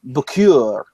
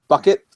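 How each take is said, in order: First: The name sounds like the French-style word bouquet. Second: The name sounds like the plain word bucket. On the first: The name is made to sound posher than it is. "So she always said Bacure or Bacra. She, you have to pronounce it this way" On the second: This is the family name as it is normally said. "their last name was uh"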